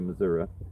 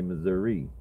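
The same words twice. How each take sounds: First: It is said the way Missouri locals say it. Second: It is said the way outsiders say it.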